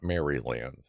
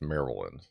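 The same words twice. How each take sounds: First: Maryland is said with a non-local pronunciation. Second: Maryland is said with the local pronunciation. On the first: The speaker calls it wrong. "it's not Maryland" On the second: The speaker calls it right. "That's how we pronounce it"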